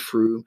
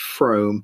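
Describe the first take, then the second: First: The vowel sounds like the one in 'room'. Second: The vowel sounds like the one in 'home'. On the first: Local people say it this way. The speaker calls it right. "but it is Froome" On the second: An outsider says it this way. The speaker calls it wrong. "occasionally people from outside the area tend to mispronounce it as Frome"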